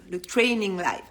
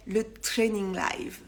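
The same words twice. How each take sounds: First: Said in the usual way. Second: Mock English accent. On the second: Shown as a demonstration. Announcing her live title to followers, in a mock English accent. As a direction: say training live slowly with a hammed-up English accent. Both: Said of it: "avec mon super accent anglais".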